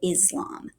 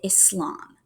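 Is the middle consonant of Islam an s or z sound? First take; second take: z; s. First: The middle consonant is a z sound. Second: The middle consonant is an s sound. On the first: This is how many Americans say it. "kind of with a Z" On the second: This is how people who practice the religion say it. "like with an S"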